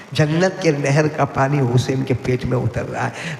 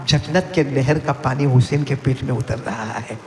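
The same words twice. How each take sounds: First: Slow, deliberate جنت کے نہر, every word spaced; slower repeat. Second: Said in the usual way. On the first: Shown as a demonstration. Preacher repeating the Prophet's words to the crowd, slow. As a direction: stretch the line out slowly for weight. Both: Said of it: "repeated line".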